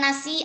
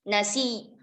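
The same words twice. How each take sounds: First: The final ya sound is single without a jolt. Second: The final ya sound is doubled with a jolt. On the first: The speaker calls it wrong. "bukan nasi aja ya" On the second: The speaker calls it right. "maka membacanya innaman nasi nasi"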